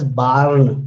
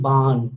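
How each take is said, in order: First: The r sound is clearly pronounced. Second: The r sound is dropped. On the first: "I'm not pronouncing it as barn" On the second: "I am dropping the r"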